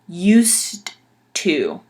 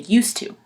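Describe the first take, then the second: First: Each word is said distinctly with a clear d. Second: The words are said quickly and run together. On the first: "pronounce it correctly, like very distinctly, very um, proper" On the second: "when you hear people say it in English just quickly"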